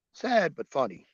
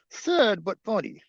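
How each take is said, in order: First: Said in the usual way. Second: Sad but funny said higher and louder, hitting Sad hard; punched emphasis. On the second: Acted. Vlogger repeats his verdict to viewers, emphatic. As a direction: push Sad up high and loud. Repeating phrase with rising force.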